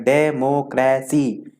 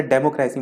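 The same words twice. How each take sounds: First: डेमोक्रेसी slowly broken into de - mo - cra - cy; डेमोक्रेसी drawn out, a gap after each syllable. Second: Said in the usual way. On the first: Shown as a demonstration. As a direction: say डेमोक्रेसी in four separate beats. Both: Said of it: "दो से ज़्यादा जिसमें समय ले".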